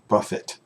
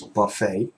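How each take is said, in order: First: The final T sound is pronounced. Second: The final T sound is silent. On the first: The speaker calls it wrong. "not buffet" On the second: The speaker calls it right. "the T at the end is not pronounced, it's silent"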